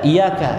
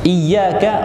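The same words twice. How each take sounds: First: The y sound is short and single. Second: The y sound is held long and doubled. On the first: The light of the sun we worship. The speaker calls it wrong. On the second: Only you we worship. The speaker calls it right.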